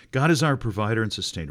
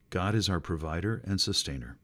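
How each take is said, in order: First: Louder and fast, declared; emphatic proclamation. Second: Said in the usual way. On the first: Real, not acted. Preacher restating the point to the church, louder and fast. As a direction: proclaim it with fire.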